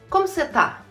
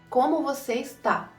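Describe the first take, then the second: First: The last word is cut to one syllable. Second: The last word keeps its full two syllables. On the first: It is the quicker everyday way to ask. "um jeito mais rápido de falar" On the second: It is the more formal way to ask. "se você precisa ser mais formal"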